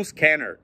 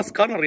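First: سكانر as English "skener", front vowels; light English-style scanner; correct pronunciation. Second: سكانر as broad "ska-nar"; heavy back vowels in scanner; wrong pronunciation. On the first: Teacher insisting it's its name, correct pronunciation. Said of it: "هو اسمه كده". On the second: Teacher rejecting the friend's word, wrong pronunciation. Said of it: "مفيش حاجة اسمها سكانر". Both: Shown as a demonstration.

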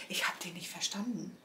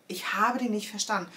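First: Whispered aside. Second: Said in the usual way. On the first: Real, not acted. Telling viewers she couldn't understand him, whispered.

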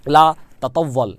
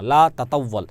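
First: Slow model phrase. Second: Said in the usual way. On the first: Shown as a demonstration. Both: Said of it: "আপনাদের কিন্তু বারবার মুখ দিয়ে বলতে হবে".

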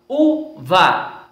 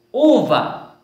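First: "uva" in two beats, u, pause, va; split into syllables. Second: Said in the usual way. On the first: Shown as a demonstration. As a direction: hold the syllables of "uva" apart. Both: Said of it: "ter as sílabas separadas".

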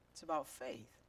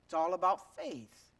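First: Soft echo. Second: Said in the usual way. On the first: Shown as a demonstration. Pastor echoing his point to the church, softer. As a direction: repeat "It's about faith" softer, dropping away.

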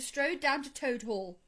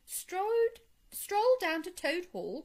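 First: Said in the usual way. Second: High, incredulous echo question; shocked, high-pitched query; astonished cry. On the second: A narrator's reading. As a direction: repeat it in disbelief, pitch shooting up. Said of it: "cried the Rat".

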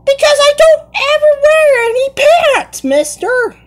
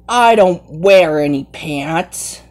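First: Squeaky high put-on kid voice; high cartoon voice. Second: Said in the usual way. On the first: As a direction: play it like a cheeky cartoon kid. Kid playing in costume voice.

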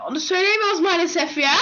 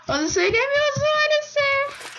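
First: Said in the usual way. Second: High sing-song. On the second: Pretend. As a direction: stretch maalesef up high. Repeats line, sing-song high.

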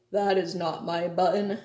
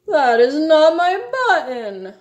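First: Said in the usual way. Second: Theatrical high lament; wail. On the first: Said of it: "said Toad". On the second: A narrator's reading. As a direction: wail it out in exasperated distress. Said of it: "wailed Toad".

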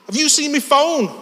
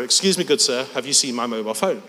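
First: High-pitched, pushy Scouse; Scouse accent. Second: Politely worded, in the usual voice; mock-polite translation. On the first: Retold or imitated. Big lad confronting a stranger, high aggressive Scouse. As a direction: demand it in broad Scouse. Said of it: "give you a glimpse of the scouse". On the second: Translating the Scouse for the audience, mildly mock-polite. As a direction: translate it with understated mock courtesy. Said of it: "Which means".

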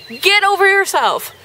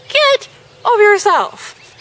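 First: Exasperated. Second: Exasperated at the reader; exasperated high. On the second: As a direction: throw it up in disbelief. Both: Shown as a demonstration.

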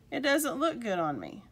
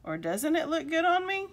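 First: Said in the usual way. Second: Higher-pitched, questioning "doesn't it look good on me"; doubting question. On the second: Acted. Doubting question after the statement.

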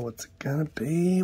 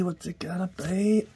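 First: Unvoiced suspense whisper. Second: Excited. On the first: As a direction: whisper it before the reveal. Suspense before a foil reveal. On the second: Acted. Same words voiced with rising tune.

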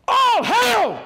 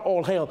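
First: High, loud joyful shout; shouted greeting. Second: Said in the usual way. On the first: Acted. Jesus greets the three women, shouting with joy. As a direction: fling it out like a herald's cry. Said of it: "The Bible says he shouted it". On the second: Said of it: "What he actually said is not".

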